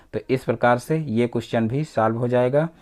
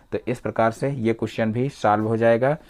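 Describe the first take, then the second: No difference in how they are said.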